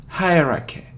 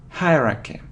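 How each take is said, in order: The two takes are said the same way.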